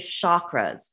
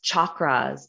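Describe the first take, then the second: First: The word begins with a soft sh sound. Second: The word begins with a hard ch sound. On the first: The speaker calls it wrong. "A lot of people say chakras" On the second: The speaker calls it right. "it is actually pronounced chakras with a hard ch, like chocolate"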